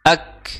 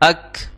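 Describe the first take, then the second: Both takes have the same delivery.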